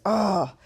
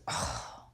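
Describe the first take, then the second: First: Lightly imitated offhand oh; dismissive oh. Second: A curt, breathless little oh, almost voiceless; mild mock of a cold brush-off; dismissive oh. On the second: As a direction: brush him off with a barely voiced oh. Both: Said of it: "Michonne looks at me and goes".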